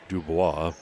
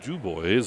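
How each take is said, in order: First: The name is pronounced the French way. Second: The name is pronounced the English way.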